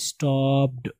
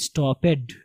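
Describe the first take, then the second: First: "stopped" in one syllable, stopt; correct pronunciation. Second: "stopped" in two syllables, stop-ped; common misreading. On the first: Shown as a demonstration. Teacher models the right reading, one-syllable "stopped". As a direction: say "stopped" with the -ed as a final stop. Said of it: "stopped नहीं होगा". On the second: Retold or imitated. Teacher quotes how some people read it, "stopped" as stop-ped. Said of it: "कुछ लोग पढ़ते हैं stopped".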